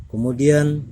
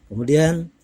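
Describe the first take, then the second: Both takes have the same delivery.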